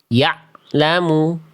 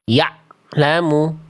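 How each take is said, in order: Both takes have the same delivery.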